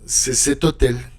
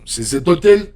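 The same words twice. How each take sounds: First: The pitch falls at the end. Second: The pitch rises at the end. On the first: It states an affirmation. "So there is no inflection on the answer" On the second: It asks a question. "You make the inflection"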